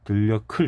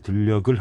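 First: The last consonant is an aspirated k sound. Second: The last consonant is a plain g sound. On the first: The speaker calls it right. "들려클 해야 되는데" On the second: The speaker calls it wrong. "끝소리 규칙을 적용했다는 거죠"

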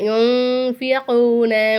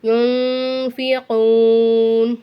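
First: The word ends with a final vowel sound. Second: The word ends sharply on the n sound.

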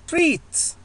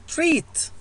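The two takes are said the same way.

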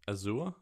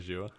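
First: It is said with a British-Australian pronunciation. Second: It is said with a North American pronunciation. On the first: The speaker calls it wrong. "the Australian or UK English way of pronouncing it" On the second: The speaker calls it right. "There are some North American pronunciations that are just better"

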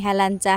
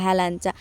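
Both takes have the same delivery.

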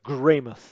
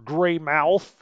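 First: The name is said in a non-American way. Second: The name is said in an American way. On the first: "but Greymouth" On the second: "if you're an American"

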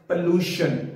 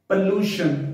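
First: The first vowel is an unrounded 'uh' sound. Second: The same.

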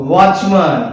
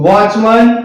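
Both takes have the same delivery.

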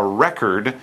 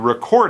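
First: It is said with the noun pronunciation. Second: It is said with the verb pronunciation. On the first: It names the thing that was taken down. "you make a record" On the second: It names the act of taking something down. "You record it, the verb"

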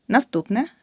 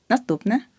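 The two takes are said the same way.

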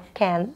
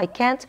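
First: The final T is stopped, American style. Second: The final T is clearly released.

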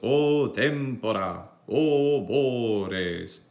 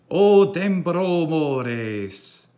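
First: There is a pause between the two phrases. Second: The two phrases run together without a pause. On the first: "Semper audimus" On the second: "ego non hic uh, feci caesura"

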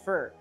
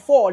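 First: The vowel is reduced to an 'ur' sound. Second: The vowel is a full, rounded 'or' sound. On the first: "il dit fur. ... il prononce comme un R" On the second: "Il pas dit for"

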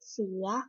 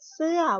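First: The syllable is said with a rising tone. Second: The syllable is said with a falling tone. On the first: "วรรณยุกต์เสียงจัตวา" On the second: "วรรณยุกต์เสียงโท"

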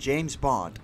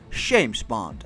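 First: The name is said in plain English. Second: The name is said with a Russian-style accent.

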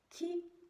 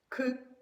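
First: The consonant is soft, with palatalization. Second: The consonant is hard, without palatalization. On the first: "М'які звуки вимовляємо м'яко, з посмішкою" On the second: "Тверді приголосні вимовляються твердо"

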